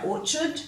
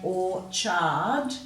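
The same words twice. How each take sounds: First: The word is said quickly with a reduced ending. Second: Every syllable of the word is said in full. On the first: The speaker calls it wrong. "we say orchard" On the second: The speaker calls it right. "rather than saying orchard"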